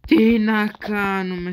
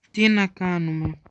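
First: The voice cracks mid-question; a real voice break as he asks; voice cracking. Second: Said in the usual way. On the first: Real, not acted. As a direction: crack on the question, louder and slow. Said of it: "voice crack". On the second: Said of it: "Συγγνώμη".

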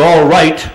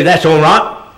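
First: Said in the usual way. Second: Cockney "That's all right." with the T of "right" dropped; light Cockney, swallow the final T in "right". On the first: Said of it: "You think you've heard the T". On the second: Shown as a demonstration. Actor demonstrating Cockney to an audience, dropping the T in "right". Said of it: "they leave off like a Cockney".

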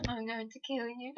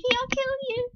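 First: Much softer, lower menacing threat; creepy soft threat. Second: High, loud squealing threat; fangirl squealing. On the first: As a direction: murmur it like a stalker. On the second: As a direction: shriek the threat like a crazed fan. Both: Acted. Obsessed fangirl threatens listener.

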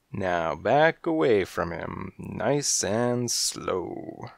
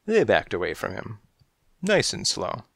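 First: Very slow, drawn-out order; slow, deliberate gunpoint command. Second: Said in the usual way. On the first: Acted. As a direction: stretch nice and slow out as a warning. Holding everyone at gunpoint.

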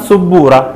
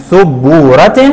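First: سبورة said as "sabbuuratun"; teacher sounds out the -un on سبورة; damma tanween. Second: سبورة said as "sabbuuratin"; teacher sounds out the -in on سبورة; kasra tanween. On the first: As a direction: end سبورة on a clear "-tun". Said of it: "عند التنوين بالضم قلنا". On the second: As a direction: end سبورة on a clear "-tin". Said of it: "وعند التنوين بالكسر قلنا". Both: Shown as a demonstration.

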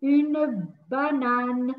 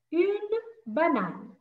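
First: "Une banane" stretched syllable by syllable; very slow model. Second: "Une banane" drawn out slowly, stress on "une"; slow model. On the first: Teacher drawing out "Une banane" for young learners. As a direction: drag out "Une banane" for children. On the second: Teacher repeating "Une banane" slowly for pupils. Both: Shown as a demonstration. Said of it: "teacher models slowly".

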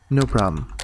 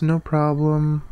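First: Said in the usual way. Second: Higher, drawn-out take. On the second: Shown as a demonstration. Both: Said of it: "I would always say no problem".

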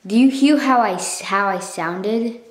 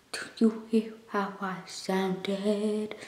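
First: Said in the usual way. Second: Slow, soft whispered self-mimicry; imitating old voice. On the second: Vlogger showing viewers their old recorded voice, slow mocking whisper. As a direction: drag it out in a mock whisper. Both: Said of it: "That's like a".

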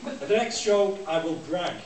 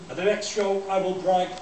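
Both takes have the same delivery.

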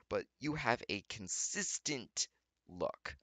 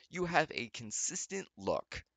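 First: Said in the usual way. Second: "You have a consistent look" repeated higher and slower, leaning on "have"; slow down and hit "have" in "You have a consistent look"; emphatic repeat. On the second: Shown as a demonstration.

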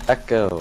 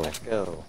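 First: Said in the usual way. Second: Soft fading repeat, like an echo; toy echo microphone. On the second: Pretend. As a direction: let it die away like an echo.

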